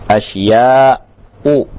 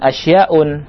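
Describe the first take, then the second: First: The word ends in a vowel without n. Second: The word ends with an n sound. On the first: The speaker calls it right. "Yang benar adalah asya'u" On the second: The speaker calls it wrong. "tidak boleh kita menyebutkan asyaun"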